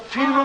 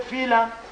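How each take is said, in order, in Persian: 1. این کلمه با لهجه معیار گفته شده است. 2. این کلمه با لهجه محلی گفته شده است.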